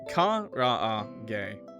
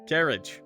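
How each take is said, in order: First: It is said with Japanese vowels, ka-ra-a-ge. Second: It sounds like the English word carriage. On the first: The speaker calls it right. "You let him know it's pronounced Kara" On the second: The speaker calls it wrong. "Not carriage"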